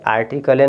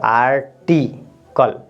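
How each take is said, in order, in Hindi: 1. अंतिम L के बाद एक स्वर ध्वनि बोली जाती है। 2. शब्द L पर खत्म होता है, उसके बाद कोई स्वर नहीं है। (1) "आर्टिकले नहीं होगा" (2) "ये तो साइलेंट रहेगा तो इसको आप पढ़ेंगे आर्टिकल"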